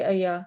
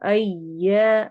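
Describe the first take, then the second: First: The 'y' sound is short and single. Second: The 'y' sound is held double with pressure. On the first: The speaker calls it wrong. "कुछ तो ऐसे पढ़ते हैं जैसे कि अया ... जिसमें हम शद को ही मिस कर देते हैं" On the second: The speaker calls it right. "Simply जोर देकर पढ़ना है"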